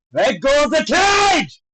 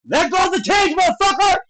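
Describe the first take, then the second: First: Slow, high yell stretching the last word; drawn-out indignant shout. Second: High, heated yell at a fighter; indignant shout. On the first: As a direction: bellow the order slowly at the fighter. Repeated yell at the fighter. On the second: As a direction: yell your outrage at the foul. Yelling at a cage-grabbing fighter. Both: Real, not acted.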